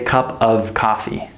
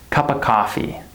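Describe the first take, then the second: First: The word 'of' is said in full. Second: The word 'of' is reduced to 'uh'. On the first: The speaker calls it wrong. "We don't say cup of coffee" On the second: The speaker calls it right. "We say cuppa"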